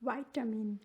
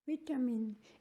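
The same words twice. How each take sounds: First: It is said in an American accent. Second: It is said in a British accent. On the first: "in US विटामिन" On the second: "in UK विटामिन"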